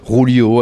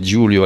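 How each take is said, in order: First: The name is pronounced the Spanish way. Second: The name is pronounced the Italian way. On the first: The speaker calls it wrong. "Rulio à l'espagnol" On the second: The speaker calls it right. "c'est Giulio à l'italienne"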